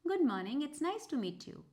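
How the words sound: It is said in an upbeat, positive tone.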